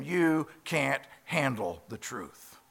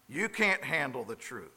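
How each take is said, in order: First: Yelled movie line. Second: Said in the usual way. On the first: Retold or imitated. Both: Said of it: "he yells back at him".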